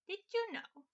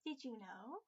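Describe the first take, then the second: First: "Did you know?" retried much higher and louder, "you" stressed; higher husk voice. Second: "Did you know?" dropped low in a husky put-on voice; low husk voice. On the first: Acted. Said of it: "That was a little too low". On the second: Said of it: "I could do a husk voice".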